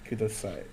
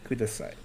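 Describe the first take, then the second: Both takes have the same delivery.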